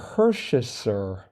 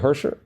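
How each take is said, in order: First: The name is said with the middle syllable. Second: The name is said without the middle syllable. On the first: "what about that I in the middle" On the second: "They don't pronounce it. They just say Hersher"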